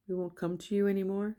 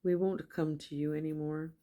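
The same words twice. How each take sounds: First: "We won't come to you anymore?" with pitch rising into a question. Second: Said in the usual way. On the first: Shown as a demonstration. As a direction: read "We won't come to you anymore?" quicker and higher, lifting at the end. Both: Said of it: "I had to say it like a question".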